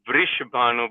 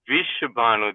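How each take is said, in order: First: An R sound follows the first V. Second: No R sound follows the first V. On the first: The speaker calls it right. "there is a R in a Vrishabhanu" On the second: The speaker calls it wrong. "then Vish is a poison"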